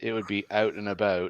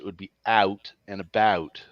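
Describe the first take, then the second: First: The vowels in out and about sound mild. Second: The vowels in out and about sound strongly exaggerated. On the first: "if I were to read it plain" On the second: "if I were to read it harsh"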